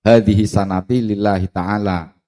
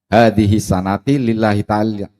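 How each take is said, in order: Both takes have the same delivery.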